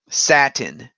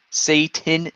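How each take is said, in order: First: The name sounds like the fabric word satin. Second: The name sounds like the standard Satan. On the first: It is a deliberate joke mispronunciation. The speaker calls it wrong. "I said satin on purpose" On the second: It is the real pronunciation. The speaker calls it right. "it's pronounced Satan"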